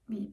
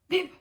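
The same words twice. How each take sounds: First: The beep sounds sad. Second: The beep sounds angry.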